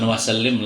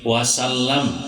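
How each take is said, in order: First: The last syllable has an 'i' vowel. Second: The last syllable has an 'a' vowel. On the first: The speaker calls it wrong. "jangan wasallim lah" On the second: The speaker calls it right.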